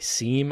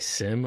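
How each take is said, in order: First: It has a long 'ee' vowel, like 'seem'. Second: It has a short 'i' vowel, like 'sim'. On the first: This is how the other host says it. "Mike is going to say seam a lot" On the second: This is how the speaker says it. "I'm going to say sim a lot"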